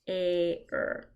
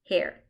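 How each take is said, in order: First: The word is drawn out sound by sound. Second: The word is said quickly as one unit.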